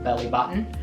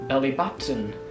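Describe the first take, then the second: First: The t in button is not really pronounced. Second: The t in button is clearly pronounced. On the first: "American in the American way you don't really pronounce the two T at all" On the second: "while in the British way sometimes it's pronounced"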